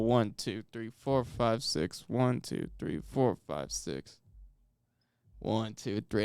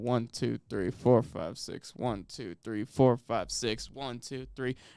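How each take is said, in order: First: The count is stretched with longer pauses. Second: The count is steady, without extra pauses.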